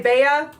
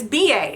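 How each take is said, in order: First: The name is said as a single word. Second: The name is said as two separate letters. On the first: The speaker calls it wrong. "some of people say Bea" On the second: The speaker calls it right. "the right pronunciation is B A"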